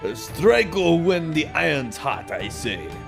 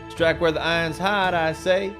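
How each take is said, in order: First: It is read in a stereotypical Japanese accent. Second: It is read in his ordinary voice.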